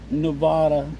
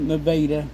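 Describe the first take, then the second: First: It is said like the name of the state. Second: It is said the local Missouri town way. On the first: This is how the state's name is said. "spelled like Nevada, the state" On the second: This is how locals say the Missouri town's name. "in Missouri, we pronounce it Nevada"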